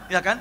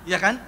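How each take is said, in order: Both takes have the same delivery.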